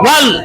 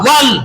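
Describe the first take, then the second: First: It begins with a w made with rounded lips. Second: The same.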